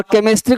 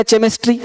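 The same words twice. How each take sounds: First: Said in the usual way. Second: "चेमिस्ट्री" opening with ch as in chair; misread K as CH. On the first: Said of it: "केमिस्ट्री को पढ़ लिया चेमिस्ट्री". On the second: Retold or imitated. Teacher quoting a misreading to class, "चेमिस्ट्री" with ch. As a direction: say "चेमिस्ट्री" with ch, not k. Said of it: "पढ़ लिया चेमिस्ट्री".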